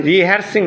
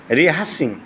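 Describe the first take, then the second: First: রিহার্সিং with the R sounded; wrong pronunciation. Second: রিহার্সিং with a silent middle R; correct pronunciation. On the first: Teacher shows students what to avoid, wrong pronunciation. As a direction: say রিহার্সিং as "ri-har-sing". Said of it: "রিহার্সিং না". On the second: Teacher models the word for students, correct pronunciation. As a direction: say রিহার্সিং as "ri-haa-sing". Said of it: "আর নাই না". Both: Shown as a demonstration.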